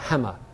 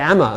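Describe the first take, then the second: First: The h at the start is pronounced. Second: The h at the start is dropped. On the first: "and not hammer" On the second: "I'll say hammer"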